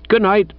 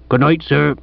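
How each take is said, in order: First: Higher-pitched answering good night; reply lightly in a higher voice; gentleman's farewell. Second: Lightly voiced village policeman; respectful but put-out sergeant's farewell; departing police sergeant. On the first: Acted. Bertie answers the departing sergeant. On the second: Departing sergeant takes his leave.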